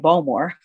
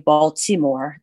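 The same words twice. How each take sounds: First: It is pronounced the way a native local says it. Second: It is pronounced the way an outsider says it. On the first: The speaker really lived in the city. The speaker calls it right. "you say Baltimore" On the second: The speaker is not a native of the city. The speaker calls it wrong. "you don't say Baltimore"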